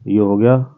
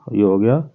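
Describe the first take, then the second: No difference in how they are said.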